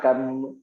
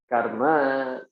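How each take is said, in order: First: The final vowel is dropped, ending on m. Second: The final vowel is clearly pronounced. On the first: This is the Hindi-style pronunciation. The speaker calls it wrong. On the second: This is the Sanskrit pronunciation. The speaker calls it right. "you have to stop yourself"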